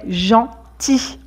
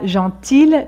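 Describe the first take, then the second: First: The final L sound is silent. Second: The final L sound is pronounced. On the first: The speaker calls it right. "mais gentil. On ne prononce pas le L" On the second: The speaker calls it wrong. "On ne dit pas gentil quand c'est au masculin"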